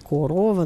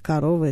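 First: Unstressed o is kept as o, northern style. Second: Unstressed o sounds like a, southern style.

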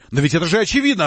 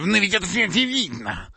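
First: It is said in a normal voice. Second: It is said in a squeaky, mocking voice.

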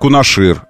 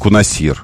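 First: The last syllable starts with an 'sh' sound. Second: The last syllable starts with an 's' sound. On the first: The speaker calls it right. "Остров называют Кунашир" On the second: The speaker calls it wrong. "а не Кунасир"

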